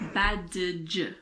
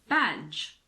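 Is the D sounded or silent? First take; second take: sounded; silent. First: The D is pronounced. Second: The D is not pronounced. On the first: The speaker calls it wrong. "It's not badge" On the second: The speaker calls it right. "D is silent before the letter G"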